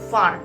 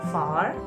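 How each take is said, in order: First: The vowel is said short and clipped. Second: The vowel is said slightly long and drawn. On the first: The speaker calls it wrong. "tidak menyebutkan kata-kata far itu dengan far" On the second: The speaker calls it right. "tapi sedikit panjang"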